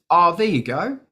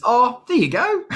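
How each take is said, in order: First: Put-on lightly Australian accent, rising lilt; casual quote with an Australian twang; a first, milder Australian-accented take. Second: Put-on very broad Australian accent, high and loud; hammed-up Aussie impression, rising at the end. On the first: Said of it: "he said it in a very Australian Al accent". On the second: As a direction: exaggerate the Australian accent, pitched way up. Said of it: "in a very Australian Al accent".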